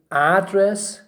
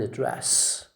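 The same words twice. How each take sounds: First: "address" stressed on AD; first-syllable stress. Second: "address" stressed on DRESS; slow "address", light first syllable, long DRESS; second-syllable stress. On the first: Teacher shows students the noun, stressing AD in "address". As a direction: hit AD hard in "address". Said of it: "it's a noun". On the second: Teacher shows students the verb, stressing DRESS in "address". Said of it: "you say address". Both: Shown as a demonstration.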